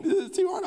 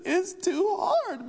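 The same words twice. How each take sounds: First: Put-on much higher tearful child whine; a six-year-old repeating his complaint through tears; crying little boy. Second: Put-on much higher, slow, tearful child wail; a six-year-old sobbing over math; crying little boy. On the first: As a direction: plead it again like a weepy kid. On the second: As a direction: stretch it out like a weepy kid. Six-year-old breaking into tears.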